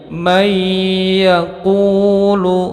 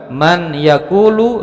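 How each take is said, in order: First: The n merges into a doubled, nasalized y. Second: The n sound is pronounced clearly before y.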